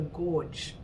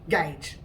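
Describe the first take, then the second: First: The vowel is 'or', like the word gorge. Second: The vowel is 'ay', like the word page. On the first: It is a joking way of saying it. The speaker calls it wrong. "I called it a gorge" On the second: It is the usual way of saying it. The speaker calls it right. "it was pronounced gauge"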